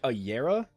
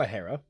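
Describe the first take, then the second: First: The word begins with a Y sound. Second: The word begins with an H sound. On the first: "where you pronounce the J like a Y" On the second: "We could do a Hera"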